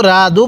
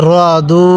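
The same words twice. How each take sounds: First: "রা দু" with an open a after r; wrong light ra. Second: "র দু" with rounded o after r, long u; correct heavy ra. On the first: Teacher warns learners off this, "রা দু" with open a. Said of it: "কেউ রা দু পড়ব না". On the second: Teacher models the correct reading, rounded "র" and long "দু". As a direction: say "র" heavy, then draw out "দু". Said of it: "র জবর রা পড়ব না". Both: Shown as a demonstration.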